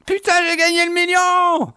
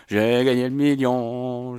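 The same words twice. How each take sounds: First: High shriek of joy, laughing; shrieking jackpot winner. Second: Slow, relishing each word; slow savoring. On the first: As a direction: yell the win with real delight. Wins the million in the game. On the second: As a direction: savor the win slowly. Repeats the win slowly. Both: Real, not acted.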